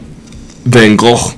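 The name is said in a non-American way. This is the original form of the name. "is the true pronunciation"

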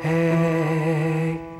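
The voice is airy with weak resonance. "see how it's a little diminished resonance?"

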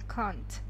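It is said with a British accent. "А британцы, они больше произносят «can't»"

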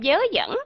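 The words begin with a y sound. This is how Southern speakers say it. "Người miền Nam thì họ đọc là"

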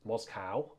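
The word is said the American way.

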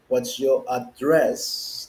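The word address is stressed the British way. "When the British, they would say"

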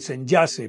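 The name is pronounced with an English accent. The speaker calls it wrong. "Algunos le han puesto el acento inglés, entonces dicen"

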